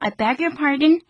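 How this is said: The pitch rises at the end like a question. Could you please say that again? "이 억양으로 하시면 다시 한번 말씀해 주시겠어요?"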